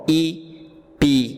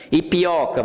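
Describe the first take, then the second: First: "Ipioca" slowly split into its syllables, i-pi-o-ca. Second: Said in the usual way. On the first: Shown as a demonstration. Teacher splits a brand name into syllables for students, slow syllable by syllable. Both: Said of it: "vamos separar as sílabas de ipioca".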